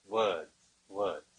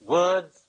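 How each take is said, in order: First: "words, words" dropped lower and softer, trailing off; fading to quiet. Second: Said in the usual way. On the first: Shown as a demonstration. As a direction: let "words, words" die away into a murmur. Repeats word, fading away.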